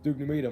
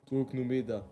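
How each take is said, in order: First: It is said in a plain accent. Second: It is said with a Russian-sounding accent.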